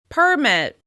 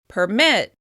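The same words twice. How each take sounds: First: The stress is on the first syllable. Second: The stress is on the second syllable. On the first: It is a noun: a document allowing something. "you'll stress the first syllable" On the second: It is a verb: to give permission. "with stress on the second syllable"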